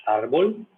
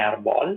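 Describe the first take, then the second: First: Árbol stressed on the first syllable, ÁR-bol; Spanish árbol. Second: Arbol stressed on the last syllable, ar-BÓL, with an open o; wrong stress. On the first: Teacher giving the classic example árbol to students. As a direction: lean on the ár of árbol and keep bol light. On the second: Teacher showing students the wrong stress on arbol. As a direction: push the stress onto the bol of arbol. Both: Shown as a demonstration. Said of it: "Não é arbol".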